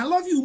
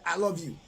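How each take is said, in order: First: "I love you" swung up high and loud; gushing I love you. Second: Flat I love you. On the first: Parodying a partner's gushing message, high and loud. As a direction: gush it like a smitten lover. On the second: Mimicking a partner's bored reply to a message, low and flat. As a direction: toss it off like a dull reply. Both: Retold or imitated.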